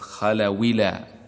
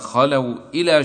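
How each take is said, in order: First: No glottal stop; the w takes an i vowel. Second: A glottal stop begins the second word.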